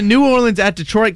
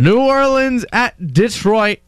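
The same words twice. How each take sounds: First: It is said very fast. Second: It is said slowly.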